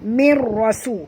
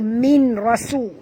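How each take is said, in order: First: The n merges fully into the r sound. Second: The n is clearly heard before the r. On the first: The speaker calls it right. "kena masukkan ke dalam ra" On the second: The speaker calls it wrong. "bukan baca min rasu"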